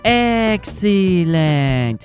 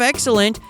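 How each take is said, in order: First: The word is drawn out with exaggerated vowels. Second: The word is said crisply with short vowels. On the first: An aged, less menacing character is speaking. "The pauses are longer, the vowels more exaggerated" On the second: A younger, menacing character is speaking. "Instead of excellent"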